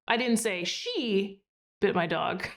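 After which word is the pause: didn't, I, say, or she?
she. There is a pause after the word she.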